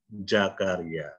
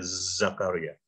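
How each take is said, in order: First: The name begins with a j sound. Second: The name begins with a buzzing z sound. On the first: "orang Indonesia bacanya apa?" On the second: "kalau saya pakai pakai bunyi Z ya"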